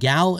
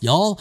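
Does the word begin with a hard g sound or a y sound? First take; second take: hard g; y sound. First: The word begins with a hard g sound. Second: The word begins with a y sound. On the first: The speaker calls it wrong. "I was told I was pronouncing it wrong when I called them gal" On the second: The speaker calls it right. "apparently it's pronounced y'all"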